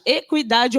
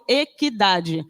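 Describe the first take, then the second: First: "equidade" with the u sounded, e-kwi-DA-de; u pronounced. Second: "equidade" with a silent u, e-ki-DA-de. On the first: Teacher showing students one accepted way, u pronounced in "equidade". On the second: Teacher showing students the other accepted way, silent u in "equidade". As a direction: drop the u after the q in "equidade". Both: Shown as a demonstration. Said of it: "não tem mais o trema".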